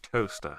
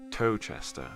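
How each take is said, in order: First: It is said exactly like the word toaster. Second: It is said as tow-chester, with a ch sound. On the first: The speaker calls it right. "It's pronounced toaster" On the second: The speaker calls it wrong. "if I told you that was pronounced Towchester. Nope, it isn't"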